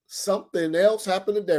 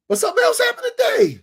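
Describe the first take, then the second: First: Said in the usual way. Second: Sudden high, loud shout; excited shout. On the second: Real, not acted. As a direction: burst out with the big news. Excited announcement of new news.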